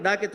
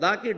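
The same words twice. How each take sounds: First: "డాకి" with a hard retroflex d; demonstrating retroflex d in "డాకి". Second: Tongue on the teeth for "దా" in "దాకి"; demonstrating dental d in "దాకి". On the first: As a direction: curl the tongue back for "డా" in "డాకి". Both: Shown as a demonstration. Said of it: "దాకి డాకి తేడా లేదా?".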